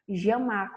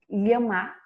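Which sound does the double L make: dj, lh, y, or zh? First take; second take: zh; lh. First: The double L sounds like 'zh'. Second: The double L sounds like a palatal 'ly'. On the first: "com som de J" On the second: "com som de L H"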